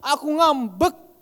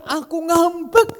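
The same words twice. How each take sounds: First: Slow, grumbling sulk on "ngambek"; "ngambek" dragged out sourly, like a grown-up really sulking; resentful "Aku ngambek"; sulky way. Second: Put-on high, childlike "ngambek" with a playful lift at the end; "ngambek" sung up brightly, sulking while laughing; innocent, happy pretend sulk; Wahyu's cheerful sulk. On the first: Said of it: "Kalau kita". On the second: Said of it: "Kalau dia kan". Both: Shown as a demonstration.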